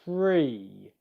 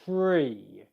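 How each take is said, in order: Both takes have the same delivery.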